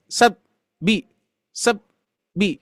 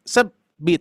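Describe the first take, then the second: First: Sab and bi chopped apart with a pause; wrong broken sab bi. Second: Sab gliding straight into bi; flowing sab bi. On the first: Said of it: "Jadi nggak gini". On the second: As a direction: let sab run into bi. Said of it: "bisa dirasakan ya". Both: Shown as a demonstration.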